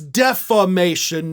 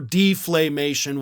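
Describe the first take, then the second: First: The word is said without an l sound. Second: The word is said with an added l sound. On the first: The speaker calls it right. "This is defamation" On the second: The speaker calls it wrong. "not deflamation or deflamation, whatever it is you're saying"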